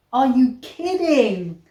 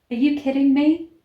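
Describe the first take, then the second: First: Louder, slowed disbelief; exasperated. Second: Loud, rising disbelief; can't believe what you just read; incredulous. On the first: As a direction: drag it out in exasperation. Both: Real, not acted. Reacting to absurd book.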